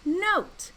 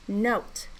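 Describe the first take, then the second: First: Note said high and bright, celebrating; excited reveal. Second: Stretched blending. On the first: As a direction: land note up high, pleased. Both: Shown as a demonstration. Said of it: "Let's do it all together".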